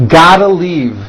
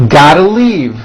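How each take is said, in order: No difference in how they are said.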